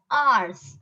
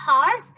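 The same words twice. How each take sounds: First: "hours" as ars; slow "hours" without the h; silent H. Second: "hours" wrongly as hars; louder "hours" with an h; H sounded. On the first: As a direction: say "hours" starting on the vowel. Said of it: "It is hours". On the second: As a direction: pronounce the h in "hours". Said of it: "not hours". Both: Shown as a demonstration.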